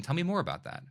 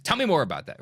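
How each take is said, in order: First: Light, inviting question, rising on more; right inflection. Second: Louder, commanding demand. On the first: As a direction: ask gently, like you truly want to hear. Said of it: "use it with the right inflection". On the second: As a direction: bark it like an order. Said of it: "not a command". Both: Shown as a demonstration.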